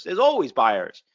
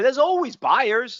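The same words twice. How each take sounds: First: "always" lower with a firm falling close; settled repeat. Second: Always stretched high and slow, pushing the point home; emphatic repeat. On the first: Coach confirming to traders there are buyers, low and falling. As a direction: bring "always" down and land the line flat and sure. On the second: Coach insisting to traders there's always buyers, slow and high. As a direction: lift "always" up high and draw the whole line out. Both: Shown as a demonstration. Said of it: "repeats the line for emphasis".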